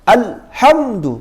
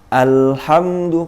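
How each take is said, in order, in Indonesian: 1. Bunyinya terpotong dengan henti yang tiba-tiba. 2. Bunyinya mengalir halus dengan panjang sedang. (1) "putus jadinya. Malah kayak sakta" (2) "Harusnya alhamdu, karena lam itu punya sifat tawassut"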